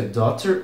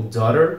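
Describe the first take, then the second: First: "daughter" with a clear T in the middle. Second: "daughter" with the T softened to a tapped R, like "dorer"; daughter with flap. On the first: Teacher gives the first of two pronunciations, "daughter" with sounded T. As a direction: pronounce the T in "daughter". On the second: Teacher gives the second of two pronunciations, "daughter" with tapped middle. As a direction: tap the middle of "daughter" like a quick R. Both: Shown as a demonstration. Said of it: "Se pronuncia daughter ou daughter".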